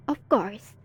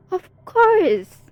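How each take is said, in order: First: Said in the usual way. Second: First of course said high and loud; villain booms the first of course at the hero; emphatic, louder. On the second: Acted.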